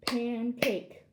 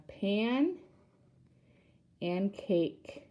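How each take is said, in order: First: Said in the usual way. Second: "pan", long pause, "and cake"; split into syllables. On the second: Shown as a demonstration. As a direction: stretch "pan" upward, wait, then give "cake". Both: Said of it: "a two-syllable word".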